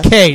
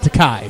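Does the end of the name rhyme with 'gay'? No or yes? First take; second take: yes; no. First: The name ends with a sound rhyming with gay. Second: The name ends with a sound not rhyming with gay. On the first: The speaker calls it right. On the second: The speaker calls it wrong. "not Takei"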